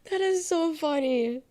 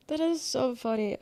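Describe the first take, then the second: First: High, slow, stretched-out take; drawn-out mock delight, pitched up; mock amused. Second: Said in the usual way. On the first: Streamer rereads chat in a high, slow mocking voice.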